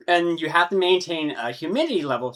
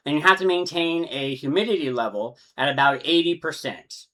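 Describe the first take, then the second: First: Hiccups breaking into the words; talking through hiccups and burps; hiccuping. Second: Said in the usual way. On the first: Real, not acted. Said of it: "hiccuping, burping". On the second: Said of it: "sorry, I'm, like".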